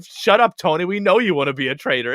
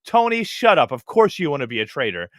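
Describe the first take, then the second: First: High, loud "Shut up" thrown at Tony; hammed-up shout of a friend silencing him; mock loud scold. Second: A hint of an annoyed friend waving him away; mock dismissive scold. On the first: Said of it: "Carolyn's going". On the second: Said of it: "somebody being like".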